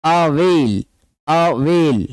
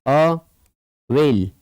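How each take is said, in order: First: अवेल in linked beats, अ-वेल; two-beat reading. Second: अवेल slowly split as अ, वेल; long gap inside अवेल; broken into syllables. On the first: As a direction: enunciate both syllables of अवेल. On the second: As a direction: dictate अवेल in two separate beats. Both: Shown as a demonstration. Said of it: "टू".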